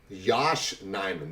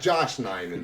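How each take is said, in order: First: The first name begins with a Y sound. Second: The first name begins with a J sound. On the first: The speaker calls it right. "listen to this one" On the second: The speaker calls it wrong. "not Josh Nijman"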